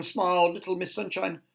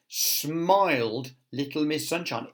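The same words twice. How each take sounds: First: Said in the usual way. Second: Smiled drawn out slowly and emphatically; stress on Smiled. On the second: Shown as a demonstration. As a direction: point up the word Smiled, stretching it. Repeats it to point out smile.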